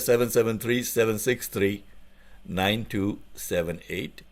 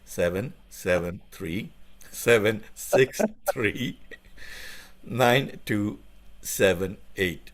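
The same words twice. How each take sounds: First: The number is said at normal speed. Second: The number is said very slowly.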